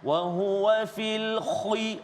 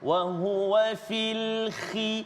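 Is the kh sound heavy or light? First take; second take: heavy; light. First: The kh sound is very heavy and thick. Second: The kh sound is lighter and less thick. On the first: The speaker calls it wrong. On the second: The speaker calls it right.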